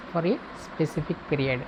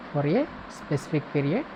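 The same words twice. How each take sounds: The two takes are said the same way.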